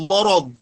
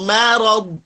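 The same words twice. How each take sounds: First: Morod with rounded mo, the faulty form; thick mim. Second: Marad with a light, open ma; thin mim. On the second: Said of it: "ma tipis manya". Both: Shown as a demonstration.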